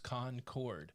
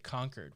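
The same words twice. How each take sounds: First: Both syllables are said fully, like two words. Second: The syllables run together as one word. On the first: It names the town in North Carolina. "it's two words" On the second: It is the usual pronunciation elsewhere in the world. "which is one word"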